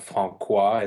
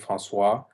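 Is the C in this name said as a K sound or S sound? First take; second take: K sound; S sound. First: The C is said as a hard K. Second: The C is said as an unvoiced S. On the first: The speaker calls it wrong. "it's not Francois" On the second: The speaker calls it right. "because we have the CD under the C"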